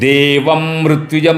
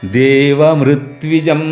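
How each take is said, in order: First: The words are split, with a pressed 'mri'. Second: The words run together, with a light 'mri'. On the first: The speaker calls it wrong. "देवम मृत्विजम नहीं" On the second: The speaker calls it right. "जो मृ है बहुत हल्का से बोलना"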